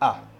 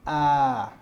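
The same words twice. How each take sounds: First: The vowel is kept short. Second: The vowel is held long. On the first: "au lieu de A" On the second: "ça se prononce A"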